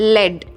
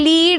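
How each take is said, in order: First: The vowel is short, as in 'bed'. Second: The vowel is long, as in 'bead'. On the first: It names the metal in a pencil tip. "ഒന്ന് ലെഡ്" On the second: It means to guide others. "ഇത് ലീഡ് എന്നും വായിക്കാം"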